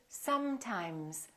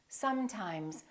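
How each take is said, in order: First: The s and m sounds are held long. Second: The s and m sounds are held long.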